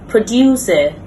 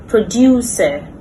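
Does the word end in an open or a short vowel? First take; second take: short; short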